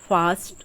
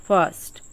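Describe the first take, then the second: No difference in how they are said.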